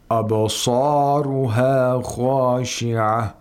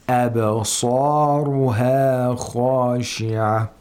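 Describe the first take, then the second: First: The opening 'ab' sounds heavy and thickened. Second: The opening 'ab' sounds light and thin. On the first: The speaker calls it wrong. "We don't say" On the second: The speaker calls it right. "make sure that the previous letter is not affected by the tafkhim of the sad"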